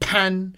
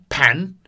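First: It is said in the first tone. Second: It is said in the second tone. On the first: "Outside the entrance is first tone" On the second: "Inside the entrance or the kitchen is second tone"

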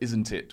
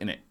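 First: Both words are pronounced fully and separately. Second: The words are reduced to a short innit.

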